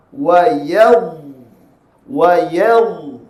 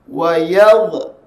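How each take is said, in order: First: "Wa yadh" with the final dha sustained, no bounce; held still dha. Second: "Wa yadh" with the final dha released in a bounce; faulty qalqalah. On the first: Teacher shows the corrected ending, held "Wa yadh". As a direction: hold the end of "yadh" and do not release it. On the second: Teacher shows what early release does, bounced "Wa yadh". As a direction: let go of "yadh" so a tiny vowel follows. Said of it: "dia akan jadi qalqalah". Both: Shown as a demonstration.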